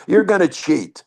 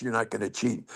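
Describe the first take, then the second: First: "You're" punched higher and louder, "gonna cheat" falling; stress on YOU'RE. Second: "you're not gonna cheat" muttered low and quiet, no weight on any word; dropped low and soft. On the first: Pitcher telling catcher he will cheat, stressing YOU'RE. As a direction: hit the word "You're" hard. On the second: Pitcher mocking catcher's refusal, muttered low and soft. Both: Retold or imitated.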